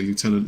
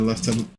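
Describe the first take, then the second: First: The first syllable sounds like 'loo'. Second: The first syllable sounds like 'lef'. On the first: The speaker calls it wrong. "you don't know how much that hurts me to say" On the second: The speaker calls it right. "instead of"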